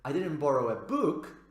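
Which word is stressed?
book. The strongest stress falls on the word book. Something other than a book was borrowed. "If we place stress on book"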